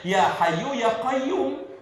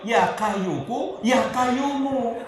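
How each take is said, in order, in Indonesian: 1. Diucapkan dengan bunyi Arab asli. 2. Diucapkan dengan bunyi gaya Jawa. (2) "lidahnya orang Jawa itu ora teteh"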